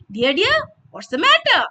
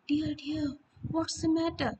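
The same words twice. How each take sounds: First: It is said in a cheerful, happy voice. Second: It is said slowly in a sleepy voice. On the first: "When you're happy" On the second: "So very slowly in a sleepy voice"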